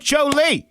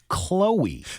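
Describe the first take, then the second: First: The name begins with a 'ch' sound. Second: The name begins with a 'k' sound. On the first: The speaker calls it wrong. "But to say Cho Lee, instead" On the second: The speaker calls it right. "It's Chloe"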